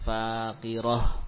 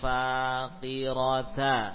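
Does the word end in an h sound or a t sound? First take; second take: h sound; t sound. First: The ending is read as an h sound. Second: The ending is read with a t and vowel. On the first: The reader pauses at this word. "kalau waqaf, ya, nanti kita membacanya sebagai apa? Sebagai ha" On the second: The word is read in connected speech with its vowel. "dibaca ta atau ha? Ta"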